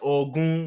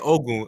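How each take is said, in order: First: The name has a Nigerian pronunciation. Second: The name has a plain English-style pronunciation. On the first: The speaker calls it right. "as Nigerian, ... you got to pronounce it right" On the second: The speaker calls it wrong. "I didn't say Ogun"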